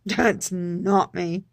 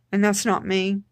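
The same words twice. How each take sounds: First: Slow, with a laugh. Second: Said in the usual way. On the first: Real, not acted. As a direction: chuckle through it, drawn out slowly. Laughing at own outburst.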